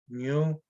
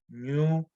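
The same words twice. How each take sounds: First: The word is said with a low tone. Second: The same.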